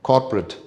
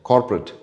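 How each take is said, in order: No difference in how they are said.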